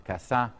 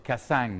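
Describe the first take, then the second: First: It is said with a standard French accent. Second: It is said with a southern French accent. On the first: "the great uh, human rights advocate" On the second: "or Cassang instead of"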